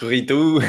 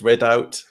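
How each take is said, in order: First: The name is said the French way, like 'rideau'. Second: The name is said with a short 'rid' vowel. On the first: "people think it's rideau, like French" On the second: "the other one I get is rid out"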